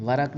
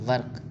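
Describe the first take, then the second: First: ورق as "varaq", vowel after the r; two-syllable pronunciation. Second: ورق as "varq", r straight into q; one-syllable pronunciation. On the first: (ورق کو "وَرَق" بولیں، ر پر زبر) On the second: (ورق کو "وَرْق" بولیں، ر ساکن) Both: Shown as a demonstration. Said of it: "ورق نہیں بولنا".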